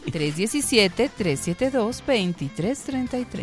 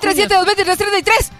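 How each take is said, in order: First: It is said at a normal speed. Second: It is said very fast.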